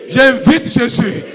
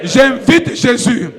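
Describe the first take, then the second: No difference in how they are said.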